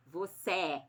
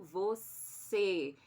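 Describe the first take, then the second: First: "você" wrongly opened to end in "é". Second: "você" ending on a long closed "ê". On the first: Teacher showing pupils how it would sound if open, "você" ending in "é". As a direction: say "você" with a wide-open final E. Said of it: "Se fosse aberto". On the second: Teacher correcting back to the closed sound, "você" with closed E. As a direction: close and hold the last vowel of "você". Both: Shown as a demonstration.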